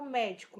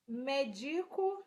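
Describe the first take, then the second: First: Teacher reading médico with stress on the first syllable, open é; correctly accented option. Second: Teacher reading the unaccented quiz option, Medico slowly with stress moved off ME; teacher offering a wrong answer, Medico drawn out without its first-syllable stress. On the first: Teacher giving students option B, médico correctly stressed on MÉ. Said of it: "Óbvio que é a letra B". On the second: Teacher quizzing students on accents, Medico slowly misstressed. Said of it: "Qual é acentuada corretamente?". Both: Shown as a demonstration.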